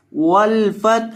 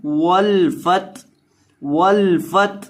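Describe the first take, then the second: First: वल फत with a clear breathy हा at the very end; audible final ha. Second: वल फत with the हा at the end left out; dropped final ha. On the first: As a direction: stretch वल फत slowly and let the final ha be heard. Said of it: "हा की आवाज़ आखिर पे". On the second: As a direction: say वल फत, cutting off the final ha as students wrongly do. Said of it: "इस तरह नहीं पढ़ना". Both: Shown as a demonstration.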